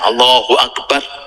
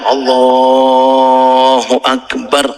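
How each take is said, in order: First: The phrase is said at a shorter length. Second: The phrase is drawn out somewhat longer. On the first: It marks moving into bowing. "takbirnya nggih sesuai dengan jaraknya" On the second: It marks moving into prostration. "rada panjang"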